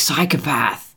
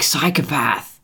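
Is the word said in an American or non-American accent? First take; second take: American; American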